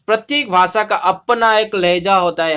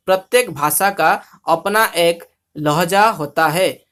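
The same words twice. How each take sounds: First: Said in the usual way. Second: Comic demo of Odia diction in Hindi; Odia-accented Hindi. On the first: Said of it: "Hindi में सुनेंगे तो अच्छा". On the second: Shown as a demonstration. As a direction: read the Hindi with rounded Odia vowels. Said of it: "Hindi को हम ओडिया में बोलना".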